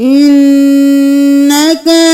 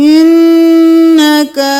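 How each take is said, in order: No difference in how they are said.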